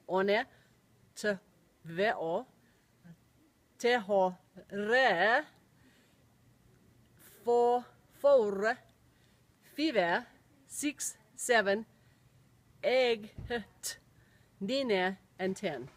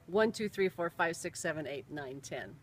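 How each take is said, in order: First: It is said with a Finnish accent. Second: It is said with a plain English accent.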